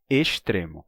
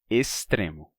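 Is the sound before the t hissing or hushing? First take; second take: hushing; hissing. First: The sound before t is a hushing sh. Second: The sound before t is a hissing s. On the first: "eu pronuncio S antes de T e D com chiado" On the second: "quem diz estrela vai dizer extremo"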